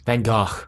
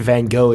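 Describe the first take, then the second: First: The name has a Dutch-like pronunciation. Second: The name has an anglicized English pronunciation. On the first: "As it's actually correctly pronounced" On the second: "is just an Anglican Anglicanation"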